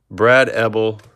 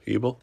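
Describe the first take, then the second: First: Ebel said EBB-ul; short-e pronunciation. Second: Ebel said EE-bul, questioning; long-e pronunciation. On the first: Reading out a card name, Ebel said EBB-ul. Tries two readings of a surname. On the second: Second-guessing a card name, Ebel asked as EE-bul. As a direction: try Ebel as EE-bul with a rising end. Questions own reading of surname. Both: Real, not acted.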